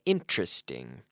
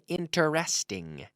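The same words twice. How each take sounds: First: The word is said with three syllables. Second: The word is said with four full syllables. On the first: The speaker calls it right. "Three syllables" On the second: The speaker calls it wrong. "we don't say interesting"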